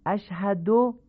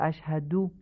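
First: اشهدو ending "do"; higher demo of اشهدو with o; "ash-hado" for اشهدو, rising; Persian damma. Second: اشهدو ending in short "du"; "ash-hadu" for اشهدو; short u closing اشهدو, not o; Arabic damma. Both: Shown as a demonstration.

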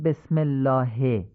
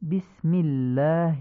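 First: بسم الله with an open "e", as "besmellaahe"; Persian-style kasra. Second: بسم الله with short close "i", as "bismillaahi"; Arabic kasra. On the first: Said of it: "نمیگیم بسم الله". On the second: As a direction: slowly spell out بسم الله with "i" for each kasra. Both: Shown as a demonstration.

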